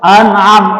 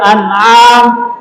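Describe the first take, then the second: First: The vowel after the ain is said short. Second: The vowel after the ain is drawn out long. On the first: It keeps the meaning of favor granted. The speaker calls it right. "Harus baca cepat" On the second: It changes the meaning to livestock. The speaker calls it wrong. "kalau panjang ainnya itu artinya ternak"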